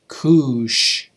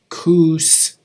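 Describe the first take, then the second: First: The word ends with an sh sound. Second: The word ends with a plain s sound. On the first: "in Cayuse, we would say koosh" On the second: "instead of koos"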